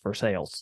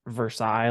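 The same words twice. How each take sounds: First: It is pronounced the local Kentucky way. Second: It is pronounced the French way, like the palace. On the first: The speaker is from the local area. "They say Versailles" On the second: The speaker is not from the local area. "like the Palace Versailles from uh France"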